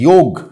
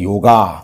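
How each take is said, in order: First: The word ends on the 'g' consonant. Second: The word ends with an added 'a' vowel. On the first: The speaker calls it right. "যদি হিন্দিতেই বলি যোগ" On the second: The speaker calls it wrong. "ওরা বলে দিয়েছে যোগা"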